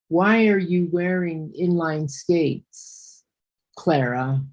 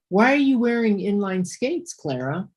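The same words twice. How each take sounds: First: It is read flatly, without question intonation. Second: It is read with clear question intonation. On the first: The listener cannot tell a question is being asked. The speaker calls it wrong. "I'm going to read it real similar to the way you read it" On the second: The speaker wants to know something. The speaker calls it right. "The sentence is"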